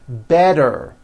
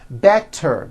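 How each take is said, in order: First: The middle consonant sounds like a soft D. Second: The middle consonant is a clear T sound. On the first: "all the T's are pronounced as D's" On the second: "Better becomes"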